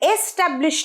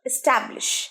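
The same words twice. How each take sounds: First: The stress is on the first syllable. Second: The stress is on the second syllable. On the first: The speaker calls it wrong. "এসে কিন্তু আমরা জোর দেব না" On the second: The speaker calls it right. "ট্যাবে জোর দিচ্ছি"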